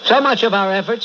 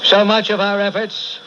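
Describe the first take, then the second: First: Louder, faster, rising to a pitch of preaching. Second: Measured and heavy, slow start; slow sermon opening. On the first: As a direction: build it up with fire. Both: Acted.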